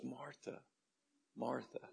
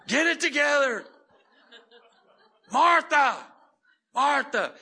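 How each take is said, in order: First: Very soft, kind calling; quiet, affectionate reproof; tender. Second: High, shouted mock rebuke; loud comic imitation of losing patience; scolding Jesus. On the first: Retold or imitated. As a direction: gently soothe her with her name. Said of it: "He says it so tenderly". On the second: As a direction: yell it in hammed-up exasperation. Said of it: "I would hear Jesus go".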